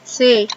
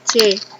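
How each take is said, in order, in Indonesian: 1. C tidak diucapkan dengan nama hurufnya dalam bahasa Indonesia. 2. C diucapkan dengan nama hurufnya dalam bahasa Indonesia. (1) "sering disebut C" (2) "daripada C"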